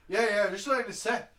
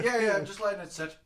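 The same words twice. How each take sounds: First: A weak mock Irish accent, a bit louder; half-hearted Irish barman impression; lightly voiced Irish barman, brushing him off; poor Irish accent. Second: Laughing through a mock Irish accent; Irish barman impression, giggling; a hint of Irish barman, laughing. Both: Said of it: "that's a poor fucking accent".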